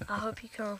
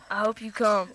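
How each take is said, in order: First: It is said hesitantly, without conviction. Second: It is said with real conviction.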